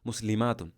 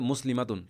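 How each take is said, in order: First: The vowel before 'tun' is long. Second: The vowel before 'tun' is short. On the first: The speaker calls it right. "দীর্ঘ হতে হবে" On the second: The speaker calls it wrong. "আপনি এভাবে বলতে পারবেন না যে"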